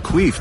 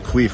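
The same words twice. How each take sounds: First: It is said in an eager, excited tone. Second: It is said in a let-down, disappointed tone. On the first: The news is a personal opportunity. "queef, this is my chance to really show" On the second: The news is bad for the team. "oh, queef, we really need him?"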